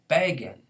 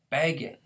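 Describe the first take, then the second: First: The stress is on the first syllable. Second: The stress is on the first syllable.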